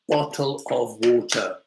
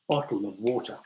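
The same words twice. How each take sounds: First: The word 'of' is said fully and clearly. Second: The word 'of' is reduced to a weak sound. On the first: The speaker calls it wrong. "We don't say bottle of water" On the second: The speaker calls it right. "of, is pronounced of"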